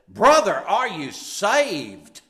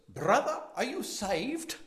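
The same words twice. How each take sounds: First: It is said in an imitated preacher's voice. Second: It is said in the speaker's ordinary voice. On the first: "He said it" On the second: "Only he didn't say it that way"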